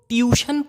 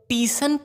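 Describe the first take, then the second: First: It is said as two syllables, tyoo-shun. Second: It is said as two syllables, tee-sun. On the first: "बहुत लोग ट्यूशन पढ़ते हैं जो कि गलत है" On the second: "टीसन पढ़ते हैं जो कि बिल्कुल ही गलत है"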